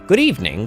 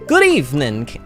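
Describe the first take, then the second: First: It is said in a plain voice. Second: It is said in an Italian accent.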